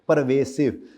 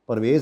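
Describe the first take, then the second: First: The word ends in a full 'vasive' sound. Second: The word ends in a short 'vez' sound. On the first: The speaker calls it right. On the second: The speaker calls it wrong. "परवेज नहीं"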